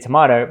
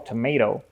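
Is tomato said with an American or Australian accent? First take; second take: Australian; American. First: It is said with an Australian accent. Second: It is said with an American accent. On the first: This is the speaker's natural way of saying it. "my instinct, I want to say tomato" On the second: This is adapted so local listeners understand. "I'll say it so they understand"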